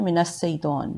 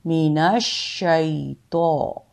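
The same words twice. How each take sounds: First: मिनश शैतान hurried with a thin s sound; rushed wrong sheen. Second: मिनश शैतो slowly with a doubled, pressed sh; stressed sheen. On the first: Teacher imitating the hasty mistake. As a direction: rush मिनश शैतान as a careless reader. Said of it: "अक्सर जल्दी में सीन पढ़ देते हैं". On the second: Teacher modelling the correct sheen. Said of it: "शीन पर ज़ोर देंगे". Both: Shown as a demonstration.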